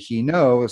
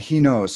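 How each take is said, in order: First: The verb ends without any s sound. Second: The verb ends with a clear s sound. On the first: The speaker calls it wrong. "like, well, wait a second" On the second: The speaker calls it right. "So that that final S"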